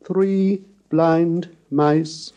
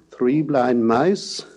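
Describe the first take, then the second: First: "three blind mice" sung on steady notes, higher and very slow. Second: "three blind mice" spoken slowly with a rising glide. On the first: Lecturer singing the song to contrast with speech. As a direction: sing it like the nursery tune. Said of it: "in the song Three Blind Mice". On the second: Lecturer showing spoken gliding pitch. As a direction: say it as a question, pitch sliding up. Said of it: "as when we say". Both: Shown as a demonstration.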